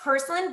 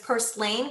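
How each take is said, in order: First: The word is not said the way it's spelled. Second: The word is said exactly the way it's spelled. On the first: The speaker calls it right. "it's pronounced Purslane" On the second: The speaker calls it wrong. "a lot of people actually pronounce it as Purslane because of the way that's spelled"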